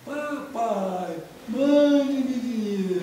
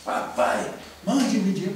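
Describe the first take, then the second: First: Slow, high, drawn-out mock wail; nearly dying plea. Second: Loud, indignant mock reading; fuming father. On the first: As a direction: stretch it out like someone on their last legs. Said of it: "Ele tava nas últimas, tava quase morrendo". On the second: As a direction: read it out as a brusque, outraged demand. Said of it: "ele tava fuzilando".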